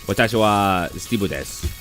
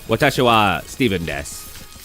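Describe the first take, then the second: First: The name is fitted to Japanese sounds. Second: The name keeps its English pronunciation. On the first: "how the Japanese should pronounce it" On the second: "actually just say my name"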